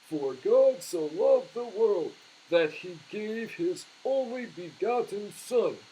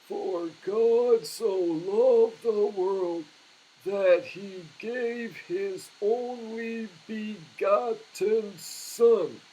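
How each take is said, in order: First: It is spoken at a normal pace. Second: It is spoken very slowly, syllable by syllable.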